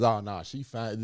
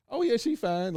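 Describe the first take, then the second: First: Said in the usual way. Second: "Oh, yeah, she fine" with "yeah" jumping way up, leering; suggestive high "yeah". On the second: Shown as a demonstration. A dude leering about a woman, "yeah" jumping high. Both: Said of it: "especially if this is the way he said".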